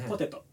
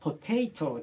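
First: All syllables are said evenly and flat. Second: One syllable is strongly stressed, English-style.

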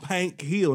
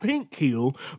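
First: The first word has a country 'a' vowel. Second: The first word has a standard short 'i' vowel. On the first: "I'm country, man. I'm from Pank Hill" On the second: "not Pink Hill"

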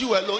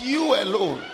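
First: The word 'you' starts with a 'j' sound. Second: The word 'you' starts with a 'y' sound. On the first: The speaker calls it wrong. "It's not you alone" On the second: The speaker calls it right. "it's you alone"

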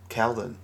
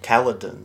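First: The name is said with two syllables. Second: The name is said with three syllables. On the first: This is how the speaker assumed it was said. The speaker calls it wrong. "I thought it was Kaldun" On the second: This is how it is said in the film. The speaker calls it right. "He says, like, Kaladin"

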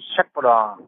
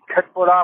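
First: The word begins with a soft sh sound. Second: The word begins with a hard k sound. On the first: The speaker calls it right. "sondern Schöttbullar" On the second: The speaker calls it wrong. "weil das ja nicht korrekt ausgesprochen ist"

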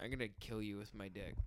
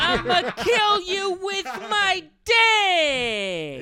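First: It is said with low energy. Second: It is said with high energy.

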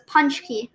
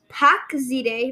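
First: It is said like 'punch-key', with a 'ch' sound. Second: It is said like 'pack-zide', following the letters. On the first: The speaker calls it right. "but then I looked at Google and it says punch key" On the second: The speaker calls it wrong. "And I was like, pack zide"

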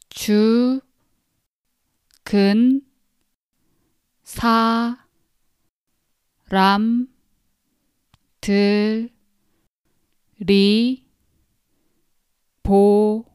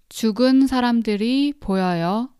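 First: Each syllable is pronounced separately, one by one. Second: The syllables run together in normal connected speech.

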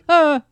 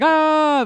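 First: The shout is cut off abruptly. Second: The shout is drawn out long.

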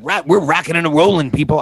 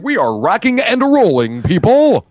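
First: The words are run together in a relaxed way. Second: Every syllable is pronounced separately and clearly. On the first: The speaker calls it wrong. "rather than" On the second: The speaker calls it right. "I like to enunciate"

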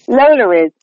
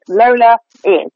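First: An R sound links Lola to is. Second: Lola and is are said without an R.

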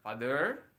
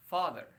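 First: The stress is on the second syllable. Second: The stress is on the first syllable. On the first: The speaker calls it wrong. "jadi bukan father" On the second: The speaker calls it right. "tapi father, seperti itu. Koma atasnya ada di fa"

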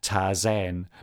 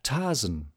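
First: The second vowel is said full and long. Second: The second vowel is said short and reduced.

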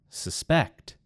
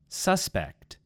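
First: The stress is on the second syllable. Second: The stress is on the first syllable. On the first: It is a verb. "in the second word, I moved the emphasis to the second syllable" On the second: It is a noun. "In the first word, it was on the first syllable"

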